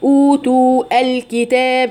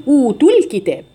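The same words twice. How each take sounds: First: Laboured أوتوا الكتاب, long oo then separate al; ثقل في النطق. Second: أوتوا الكتاب linked smoothly, the last oo dropped short; التخلص من الساكنين. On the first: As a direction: slowly keep both clashing sounds in أوتوا الكتاب. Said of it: "ثقل في النطق". (أوتوا الكتاب بثقل دون حذف المد) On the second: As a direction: slide from أوتوا straight into the ل of الكتاب. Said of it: "نحذف حرف المد الأول". (أوتوا الكتاب موصولة بحذف المد) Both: Shown as a demonstration.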